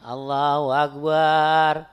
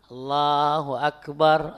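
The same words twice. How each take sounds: First: The final syllable bar is drawn out long. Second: The final syllable bar is kept short. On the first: The speaker calls it wrong. "Panjangin barnya" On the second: The speaker calls it right. "harusnya Allahu akbar"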